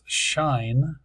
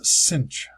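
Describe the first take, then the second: First: It is pronounced like the word shine. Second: It is pronounced like the word cinch. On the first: This is the usual name in England. "in England they call this shine" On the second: This is the usual name in this country. "that's what we usually call it here"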